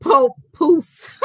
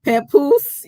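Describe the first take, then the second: First: "Pope Poose" said as two words, POPE then POOSE; reading out the viewer's version Pope Poose; mock mispronunciation. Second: "Papoose" as pa-POOSE, one word, stress on the end; own pronunciation. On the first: Reading out the viewer's version to the stream: "Pope Poose" in two parts. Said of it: "C X said". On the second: Shown as a demonstration. Host trying her own version of Papoose, rising. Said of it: "Maybe I'm saying it right".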